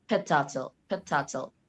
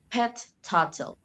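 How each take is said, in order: First: Pet turtle joined with one held T; connected geminate. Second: Pet turtle slow and higher, both Ts apart; separate words. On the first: Student demonstrating geminates, pet turtle linked on one T. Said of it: "If we connect it, it becomes". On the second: Student reading out item, pet turtle word by word. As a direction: release the T of pet before turtle. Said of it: "If we connect it". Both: Shown as a demonstration.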